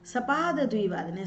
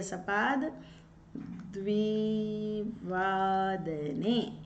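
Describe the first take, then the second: First: Said in the usual way. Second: द्विवादने stretched out very slowly with a rising end; slow dictation of द्विवादने; slow demo. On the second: Shown as a demonstration. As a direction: drag out द्विवादने syllable by syllable so students write it. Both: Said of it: "इस प्रकार".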